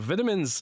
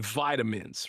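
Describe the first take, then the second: First: It is said in a British accent. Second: It is said in an American accent. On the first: The speaker calls it wrong. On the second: The speaker calls it right.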